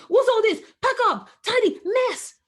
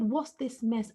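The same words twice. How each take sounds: First: Loud, high, sharp telling-off; scolding parent. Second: Said in the usual way. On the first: Retold or imitated. Mother mock-scolds her son over his toys, loud and high. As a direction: bark at the child over the mess. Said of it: "So I'm not saying to him". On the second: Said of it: "I've tried that before where I said".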